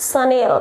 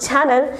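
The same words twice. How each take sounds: First: Sunil as French 'sha-nel'; correct pronunciation. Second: Channel, as in TV channel; wrong pronunciation. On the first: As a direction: end Sunil in a clear 'nel'. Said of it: "The correct pronunciation of this brand". (Chanelનો સાચો ઉચ્ચાર, 'શનેલ') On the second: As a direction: say channel with 'ch', stress up front. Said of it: "Actually, it's not channel". (Chanelનો ખોટો ઉચ્ચાર 'ચેનલ') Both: Shown as a demonstration.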